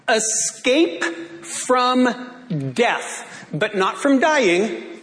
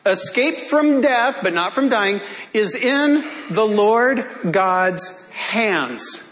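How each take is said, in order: First: Very slow, drawn-out preached phrase; slow pulpit emphasis; preaching. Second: Rising pulpit emphasis; preaching. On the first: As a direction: let it ring out slowly. Preached line, slowed. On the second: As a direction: lean on "from" and slow down. Repeated preached line. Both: Acted.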